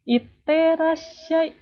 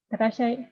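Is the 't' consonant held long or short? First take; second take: long; short. First: The t sound is held as a double consonant. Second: The t sound is short, with no hold. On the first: The speaker calls it right. "Jadi it, iterashai gitu" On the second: The speaker calls it wrong. "Pelafalannya kurang gitu"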